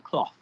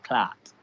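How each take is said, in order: First: It ends with a th sound. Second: It ends with a t sound. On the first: "we don't say cloth" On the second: "We say C L A A T"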